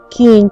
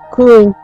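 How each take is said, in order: First: The vowel sounds like a clear i. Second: The vowel sounds like a hard y. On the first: This is how people speak now. "А тепер" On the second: This is the old village way of speaking. "як говорили"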